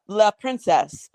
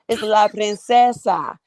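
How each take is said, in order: First: The last word is said like English princess. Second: The last word ends with a Spanish -sa sound. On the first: The speaker calls it wrong. "Sometimes they say la princess" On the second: The speaker calls it right.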